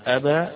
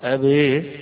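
First: The final vowel is an open 'a' sound. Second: The final vowel is tilted toward an 'e' sound. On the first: "بالفتح" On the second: "بالإمالة يسمونها الإضجاع إمالة خالص"

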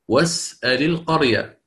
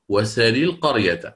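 First: The glottal stop in the verb is pronounced. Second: The glottal stop is dropped; its vowel moves forward.

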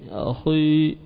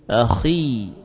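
First: The heavy, thick quality continues through the vowel. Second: The heavy quality thins right after the kh. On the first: The speaker calls it wrong. "tidak benar kalau kita terus melanjutkan apa? Tafkhim" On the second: The speaker calls it right. "langsung menipis"

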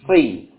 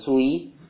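First: The vowel is plain, with no lip rounding. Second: The vowel is rounded, with lips pushed forward. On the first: The speaker calls it right. "Tapi langsung si" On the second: The speaker calls it wrong. "bukan sui, ya, kalau sui, ya, ini keliru"

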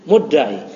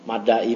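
First: The first vowel is pronounced as 'u'. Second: The first vowel is pronounced as 'a'. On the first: The speaker calls it right. "muddai idda'a yadda'i muddai itu isim fa'il" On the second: The speaker calls it wrong. "dari tadi antum ribet amat bacanya maddai"

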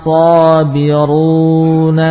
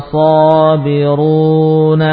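The two takes are said the same way.

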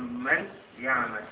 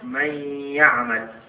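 First: The n is pronounced clearly before the y. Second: The n merges into a nasalized doubled y. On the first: "لو إظهار سنقول ماذا؟ سنقول من يعمل" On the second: "لكن هنا أضغمنا النون في الياء فقلنا من يعمل"

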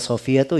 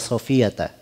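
First: The name ends with a final 'u' vowel. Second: The name ends with a final 'a' vowel. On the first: "bisa dibaca ya Sofiyatu" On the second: "ya bisa dibaca ya Sofiyata"

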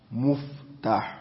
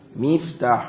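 First: The first vowel is u, as in muftah. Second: The first vowel is i, as in miftah. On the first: The speaker calls it wrong. "نحن طبعا نضمها، والضم ليس صحيحا" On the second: The speaker calls it right. "والصحيح مفتاح مفعال"

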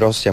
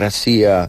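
First: The word has its standard Polish pronunciation. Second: The word has a Russian-style pronunciation. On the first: "Nie mówi Rosja" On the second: "mówi Rosja"

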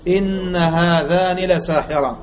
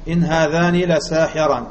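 First: The n of the first word is doubled. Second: The n of the first word is light. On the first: The particle is the full emphatic form, which makes the reading hard to explain. "إن بالتشديد" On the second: The particle is the lightened form with no grammatical effect. "هذا إن مخففة مهملة"

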